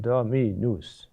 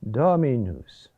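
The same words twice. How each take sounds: First: "dominus" with DO and MI both hit; two stressed syllables. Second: "dominus" accented on DO, light after; stress on first syllable. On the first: Teacher showing singers what to avoid, two intensive syllables in a row. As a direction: wrongly punch two syllables of "dominus" one after the other. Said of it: "it's not two, um, intensive sign-, uh, syllables, one after the other". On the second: Teacher showing singers the proper word accent, first-syllable stress. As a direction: hit the first syllable of "dominus", let the rest fall away. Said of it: "compromise the accent".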